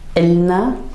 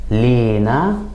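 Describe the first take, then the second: First: It starts with a glottal stop before the vowel. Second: It starts with L and a stressed E vowel. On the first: "in Levantine dialect, we would actually add a little glottal stop at the beginning" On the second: "in Egyptian, we tend to put some stress on the uh, the first syllable and add kind of an E sound"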